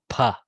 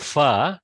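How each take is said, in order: First: It starts with a breathy p sound. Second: It starts with a hissing f sound. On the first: The speaker calls it right. "do pha" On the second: The speaker calls it wrong. "Don't do fa"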